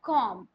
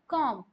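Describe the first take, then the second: Both takes have the same delivery.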